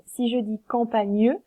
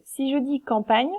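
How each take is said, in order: First: "campagne" said "cam-pa-gneu" with the E sounded; "campagne" ending in a sounded "-gneu"; final E sounded. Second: Said in the usual way. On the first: Shown as a demonstration. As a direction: add a sounded E at the end of "campagne". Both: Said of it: "est-ce qu'on dit campagne ou campagne?".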